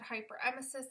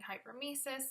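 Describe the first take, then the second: First: A vowel is said between 'hyper' and 'mesis'. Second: No vowel is said between 'hyper' and 'mesis'. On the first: This is how the doctor says it. "My doctor said hyperemesis" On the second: This is how the speaker has been saying it. "I've been saying hypermesis"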